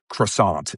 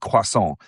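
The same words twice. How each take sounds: First: It is said with an English pronunciation. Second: It is said with a French pronunciation. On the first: "not croissant" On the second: "all my friends make fun of me when I say croissant"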